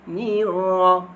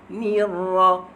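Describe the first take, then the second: No difference in how they are said.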